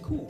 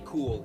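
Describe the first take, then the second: First: The final L sound is dropped. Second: The final L sound is pronounced. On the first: The speaker calls it right. "We don't pronounce the L when ... it comes at the end" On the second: The speaker calls it wrong. "We don't say cool"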